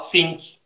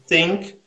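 First: The word begins with an f-like or t-like sound. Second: The word begins with a soft th sound. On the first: "a gente adapta para a nossa língua portuguesa. A gente fala think" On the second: "O TH a gente não tem na língua portuguesa"

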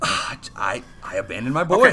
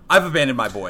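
First: It is said with reluctant regret. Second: It is said flat, without emotion.

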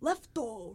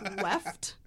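First: The word ends with an added extra vowel. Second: The word ends cleanly on the final consonant. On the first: The speaker calls it wrong. "they're always like" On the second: The speaker calls it right. "There's no O. Like, just left"

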